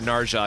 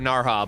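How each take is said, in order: First: The middle consonant is a hard j sound. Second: The middle consonant is a soft h sound. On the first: "that just sounds wrong to me. Ja ja ja" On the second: "I gotta call her Narha"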